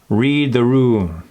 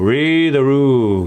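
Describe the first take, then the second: First: Consonants are crisp and clearly framed. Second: Vowels dominate and the consonants are slurred. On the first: "Now frame it" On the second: "let's hit that with a drunkenness. ... Hear those vowels take over?"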